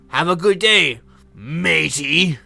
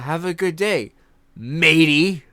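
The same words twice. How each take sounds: First: It is said in a put-on pirate accent. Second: It is said in a plain, normal voice. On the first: "I'm gonna drop out of my accent now" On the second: "Like no accent, no no anything"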